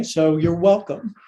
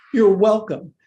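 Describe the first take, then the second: First: Said in the usual way. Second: You're punched louder, falling tune; stress on YOU'RE. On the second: Shown as a demonstration. Teacher teasing class, you're louder with falling tune. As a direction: lean hard on you're.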